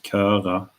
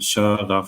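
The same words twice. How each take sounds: First: The first consonant is a hard k sound. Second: The first consonant is a soft hissing sound. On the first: The speaker calls it wrong. "It's not köra, right?" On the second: The speaker calls it right. "then we get the softer sound"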